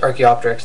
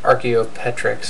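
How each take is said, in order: First: The ending is said as 'op-ter-ix'. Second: The ending is said as 'o-pet-rix'. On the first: The speaker calls it right. "it's pronounced Archaeopteryx" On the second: The speaker calls it wrong. "not Archaeopetrix"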